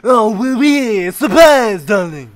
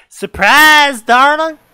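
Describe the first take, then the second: First: Hammy fake French accent, higher and louder; bad French accent. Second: Loud cheerful surprise shout; excited shout. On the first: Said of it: "Are you that bad at French accents". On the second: Acted. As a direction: shout it like happy parents. Parents shout surprise in story.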